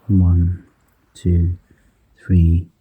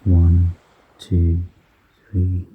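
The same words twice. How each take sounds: The two takes are said the same way.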